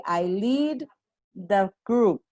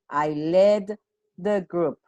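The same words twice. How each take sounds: First: "lead" said as leed, long ee vowel; present tense lead. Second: "led" said with a short e, like "red"; past tense led. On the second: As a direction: stress "led" with a short clipped e. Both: Shown as a demonstration. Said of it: "Past tense of lead".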